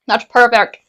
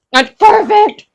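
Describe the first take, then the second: First: Said in the usual way. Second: High, loud squeal of delight; overjoyed. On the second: Real, not acted. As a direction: squeal it, thrilled with what you made. Delighted with her cooked food.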